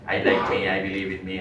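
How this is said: It is read flatly, as a mechanical ritual. The words are recited without being felt. The speaker calls it wrong. "One should not read ceremoniously"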